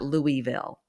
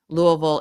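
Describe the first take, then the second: First: The name is said the way outsiders say it. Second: The name is said the way locals say it. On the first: The speaker is not from the city. The speaker calls it wrong. "not Louisville or Louisville. Ugh, we don't like that" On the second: The speaker is from the city. The speaker calls it right. "you can tell if someone is from Louisville because they say it Louisville"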